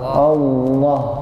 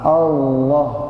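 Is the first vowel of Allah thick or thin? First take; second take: thin; thin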